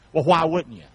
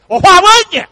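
First: Said in the usual way. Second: High, loud, drawn country voice; high loud country delivery of the brother's catchphrase; brother's country twang. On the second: Retold or imitated. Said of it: "he says it like this".

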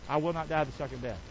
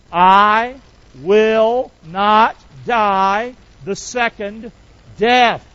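First: Said in the usual way. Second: Each word drawn out slow and loud; slow declaration. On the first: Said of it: "Pop that saying back up there". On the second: Shown as a demonstration. Pastor leading the church in a slow declaration. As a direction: lead the church word by word, slowly. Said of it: "Would you say that with me?".

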